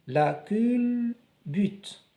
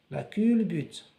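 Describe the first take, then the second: First: La culbute drawn out slowly, cul and bute split apart; sounded out. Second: Said in the usual way. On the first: Shown as a demonstration. Teacher to pupils, splitting la culbute into slow syllables. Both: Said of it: "on découpe les mots pour bien prononcer".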